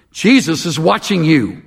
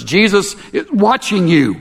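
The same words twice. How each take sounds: First: A lightly eerie voice calling from the darkness; mild spooky warning from nowhere; disembodied voice. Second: A hint of a spooky warning, rung out; clear as a bell. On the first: Parrot's hidden voice startles the burglar, lightly eerie. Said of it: "a strange disembodied voice". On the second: Parrot repeats its warning to the burglar, high and clear. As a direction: ring it out higher and clear. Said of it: "clear as a bell". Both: A narrator's reading.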